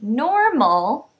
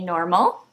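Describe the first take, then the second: First: The word is said slowly, syllables pulled apart. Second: The word is said quickly, syllables run together. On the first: "Then I'll say it a little slower" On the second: "I'll say the word fast"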